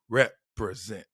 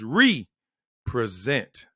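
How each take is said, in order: First: The word is said quickly as one unit. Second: The word is said slowly, syllable by syllable. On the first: The speaker calls it wrong. "not represent" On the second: The speaker calls it right. "break them down to syllables"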